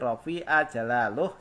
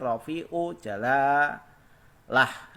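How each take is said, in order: First: The first word ends in a, the second in uh. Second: The first word ends in u, the second in ah. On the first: The fruit of the recitation shows on the reciter's face. "kalau dibaca ya ilahal aliyati rafi'a jalaluh juga boleh" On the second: A sea of spiritual knowledge opens to see the saints. "menggunakan domah ain dan di fathah lamnya"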